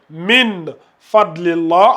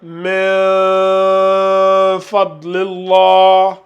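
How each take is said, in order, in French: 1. Le n est fermé complètement et clairement. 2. Le n est laissé ouvert, pas fermé. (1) "au lieu de lire Min Fadlillah" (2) "on garde la bouche un peu ouverte"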